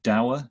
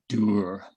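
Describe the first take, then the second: First: It is said with a non-Scottish pronunciation. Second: It is said with a Scottish pronunciation. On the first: "there's a word in English" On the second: "as the Scots that I live amongst now pronounce it"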